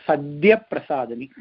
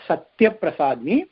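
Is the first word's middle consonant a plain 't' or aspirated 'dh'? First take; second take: aspirated dh; plain t. First: The first word has an aspirated 'dh' sound. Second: The first word has a plain 't' sound. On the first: The speaker calls it right. "it is Sadhya Prasadini" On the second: The speaker calls it wrong. "pronounce this Nama wrongly as Satya Prasadini"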